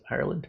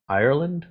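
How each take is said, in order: First: Unsure, questioning Ireland? with a soft rise; second-guessing the place name, quietly; doubtful question. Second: Said in the usual way. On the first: Real, not acted. Host doubting a viewer's location, soft puzzled question. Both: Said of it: "I think it's Ireland".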